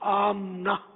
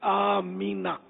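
First: The m has no vowel after it. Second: A short i vowel follows the m. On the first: The speaker calls it wrong. "ہمارے یہاں میم کو ساکن پڑھتے ہیں" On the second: The speaker calls it right. "میم کے نیچے زیر ہے"

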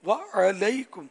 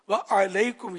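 The two takes are said the same way.

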